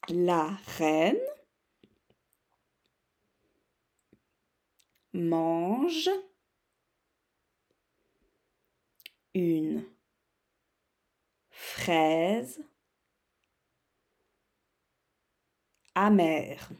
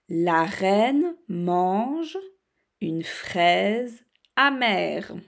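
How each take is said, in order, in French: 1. La phrase est lue à un rythme plus lent. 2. La phrase est lue à un rythme assez rapide. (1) "je vais plus doucement" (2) "Je vous dis ma phrase assez rapidement"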